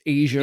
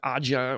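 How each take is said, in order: First: It is said like the continent Asia. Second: It is not said like the continent Asia. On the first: The speaker calls it right. "it's Asia, like the continent" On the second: The speaker calls it wrong. "if you never knew how to pronounce it, like Aja"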